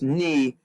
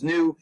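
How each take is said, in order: First: It is said with the Greek pronunciation. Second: It is said with the English pronunciation. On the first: This is how a Greek speaker says it. "If you were in fact Greek, you would actually pronounce this ni" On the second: This is the usual scientific usage. "English-speaking people and most scientists refer to this as nu"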